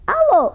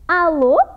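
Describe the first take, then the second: First: It is spoken at a fast pace. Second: It is spoken at a slower pace.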